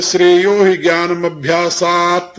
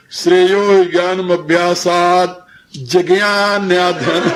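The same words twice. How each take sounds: First: "ज्ञानम अभ्यासात" run together as one correct phrase; joined-up Sanskrit recitation. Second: Slow mock recitation, "जिज्ञान्याधन" broken into ji-gyaan-nyaa-dhan; wrong split recitation. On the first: Teacher reciting a verse to students, "ज्ञानम अभ्यासात" correctly joined. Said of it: "साथ के साथ बोला जाएगा". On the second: Teacher showing students the error, "जिज्ञान्याधन" wrongly split and slow. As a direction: drag out "जिज्ञान्याधन" with an extra vowel, breaking into a laugh. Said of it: "यदि तुम वैसे बोलो". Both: Shown as a demonstration.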